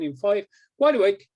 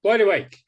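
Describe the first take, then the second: First: Wake-up call. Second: Louder, higher, punchy "wide awake"; firm wake-up call. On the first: Hypnotist waking the subject. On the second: Hypnotist bringing the subject out of trance, firm and loud. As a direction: snap the subject fully awake. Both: Acted.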